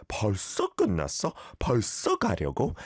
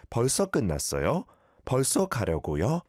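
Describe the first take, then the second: First: Casual 반말 ending: "벌써 끝났어?" and "벌써 가려고?" with no 요; informal speech. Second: Polite ending with 요 added: "끝났어요?" and "가려고요?"; polite form. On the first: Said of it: "this is all 반말, informal talk". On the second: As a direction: add "요" after "끝났어" and "가려고" as if to a senior. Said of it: "at least put a yor at the end". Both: Shown as a demonstration.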